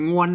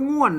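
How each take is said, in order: First: The word is said with a mid tone. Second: The word is said with the tho tone. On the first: "เสียงสามัญนะครับ" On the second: "ออกไปถึงโทนะครับ"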